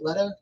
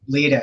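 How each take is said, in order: First: The first vowel sounds like the one in 'bet'. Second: The first vowel sounds like the one in 'bee'. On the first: The speaker calls it wrong. "did I pronounce that right" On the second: The speaker calls it right. "I've been pronouncing it wrong this whole fucking time"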